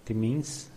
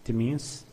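Both takes have the same delivery.

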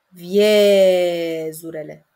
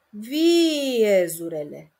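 First: The e sound after it is drawn out. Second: The i sound at the start is drawn out. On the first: Stretching this sound shows it is a full vowel. The speaker calls it right. "Este regulă să zic viezurele" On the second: Stretching this sound shows it is a semivowel. The speaker calls it wrong. "Deloc bine"

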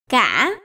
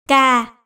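First: The syllable is said on a broken rising tone. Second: The syllable is said on a low falling tone. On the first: "ngã" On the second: "huyền"

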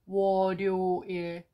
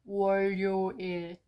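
First: The final l stays on its own syllable. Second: The final l carries over into the next syllable. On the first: "second version would be 월요일" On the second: "first version would be 월요일"

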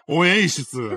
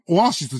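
First: The word is said with an English-like 'ei' vowel. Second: The word is said with plain Japanese vowels. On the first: "ただのイギリス人だろ" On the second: "オアシスじゃなくて"

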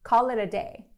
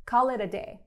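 The two takes are said the same way.

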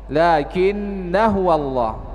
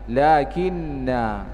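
First: The final vowel is short, running into the next word. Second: The final vowel is drawn out long at a stop. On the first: The reader continues without stopping. "kalau kita baca wasol maka alifnya dianggap tidak ada" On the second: The reader stops at this word. "kalau kita baca waqaf maka tathbutu waqfan, dibaca tetap dibaca panjang"

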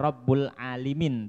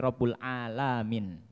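First: The vowel after the L is 'i'. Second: The vowel after the L is 'a'. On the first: The speaker calls it wrong. "bukan dibaca" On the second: The speaker calls it right. "bi fathil lam, dengan menfathahkan lamnya"

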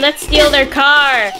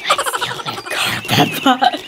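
First: It is said in a normal voice. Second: It is said in a whisper.

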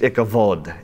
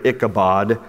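First: The middle consonant is a v sound. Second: The middle consonant is a b sound.

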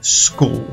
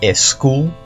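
First: The word begins directly with the s sound. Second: An extra e sound comes before the s. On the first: The speaker calls it right. "sino school" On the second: The speaker calls it wrong. "empieza con una S y no con una E, no es school"

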